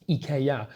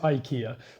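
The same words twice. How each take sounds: First: The name is said the Swedish way. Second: The name is said the common international way. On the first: "in Swedish you'd actually pronounce it IKEA" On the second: "the rest of the world pronounce it IKEA"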